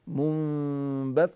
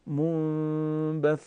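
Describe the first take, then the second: First: منبث with the doubled ث broken in two, sound cut; wrong, cut off. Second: منبث with the doubled ث drawn out, very slow, unbroken; ث held long. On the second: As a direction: stretch the ث in منبث so it never cuts. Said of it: "یه مقدار من میکشم که شما بهتر متوجه بشین". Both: Shown as a demonstration.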